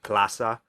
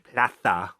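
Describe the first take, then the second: First: The middle consonant is a plain s sound. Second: The middle consonant is a lisped th sound. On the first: "plaza is like plaza" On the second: "he'd say plaza with like the th in there"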